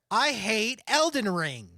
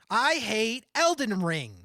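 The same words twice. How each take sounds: First: The voice has extra airy high frequencies. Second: The voice lacks airy high frequencies, sounding closed. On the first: "There's so much air" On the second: "This is without the air"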